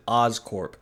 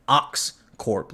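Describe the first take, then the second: First: "Oscorp" with an s, no x sound; misheard as Oscorp. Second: "Oxcorp" slowly, with a clear x; corrected to Oxcorp. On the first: Host owns up to mishearing the name, saying "Oscorp" with an s. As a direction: say "Oscorp", first syllable like "Oz". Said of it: "I thought she said". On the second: Host corrects the misheard name, "Oxcorp" slow with a clear ks. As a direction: stretch out "Oxcorp", sounding the ks. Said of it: "it ended up being Oxcorp, like O X E Corp". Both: Shown as a demonstration.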